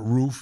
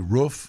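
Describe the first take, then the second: First: The vowel does not rhyme with woof. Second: The vowel rhymes with woof, the dog sound. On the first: "not roof" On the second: "he'd say roof"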